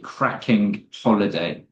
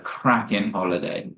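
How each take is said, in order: First: The G at the end of cracking is pronounced. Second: The G at the end of cracking is dropped. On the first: The speaker calls it wrong. "It sounds quite clunky to say cracking holiday" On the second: The speaker calls it right. "drop that G"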